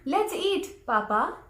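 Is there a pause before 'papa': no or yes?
yes. There is a pause before the last word. Papa is being invited to eat. The speaker calls it right. "There is a break in between"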